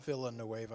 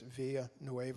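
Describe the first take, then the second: First: The name is said with an American English accent. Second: The name is said with a local Spanish accent. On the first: This is how outsiders would say it. "we would call it" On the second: This is how local people say it. "is the way they pronounce it"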